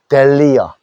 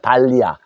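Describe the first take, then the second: First: The first vowel sounds like 'eh'. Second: The first vowel sounds like 'ah'. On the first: This is how the word is said in English. "영어식으로 쓰면은 요 A자가 에 소리도 난다" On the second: This is the word read letter by letter as spelled. "그대로 읽으면 됩니다"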